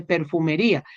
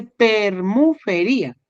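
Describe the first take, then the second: First: Said in the usual way. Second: "permufería" said with the m and f swapped, per-mu-fe-ría; misread word. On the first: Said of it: "ahí dice permufería". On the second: Shown as a demonstration. Teacher reading out the student's typo, swapped syllables. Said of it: "ahí no dice perfumería".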